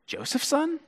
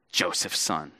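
First: Joseph's son? rising sharply high and soft; Joseph's son? in a high, soft disbelieving rise; incredulous question. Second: Joseph's son? dropped low and soft with a falling sneer; Joseph's son? low, quiet and falling with contempt; scornful put-down. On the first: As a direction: ask "Joseph's son?" as if it can't be true. Crowd questions Jesus' origins. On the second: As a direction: spit out "Joseph's son?" dismissively. Crowd turns contemptuous. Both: Retold or imitated.

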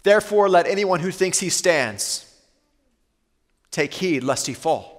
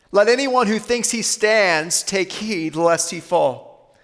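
First: Said in the usual way. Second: "Let anyone who thinks he stands take heed lest he fall" said slowly, every word weighed; slow, deliberate preacher's repeat; slow, weighty repeat. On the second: Shown as a demonstration.

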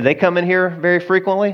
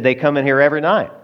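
First: "They come in here very frequently?" pitched higher as a question; asking question. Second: "every night" stated with a falling tune; matter-of-fact answer. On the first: Tony asks the owner about the women, "very frequently?" lifted as a question. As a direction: ask "very frequently?" with a lifted, inquiring tune. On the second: Owner answers Tony about the women, "every night" falling, matter-of-fact. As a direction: answer quickly, dropping on "night". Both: Retold or imitated.

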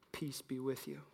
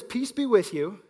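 First: Softer, hushed greeting; hushed Jesus line. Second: Said in the usual way. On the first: Acted. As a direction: say it gently, almost hushed.

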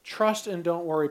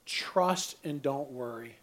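First: Said in the usual way. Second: Low, slow and soft, letting each word sink in; slow soft emphasis. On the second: Acted. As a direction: lay it down gently and very slowly. Repeats the key message twice.

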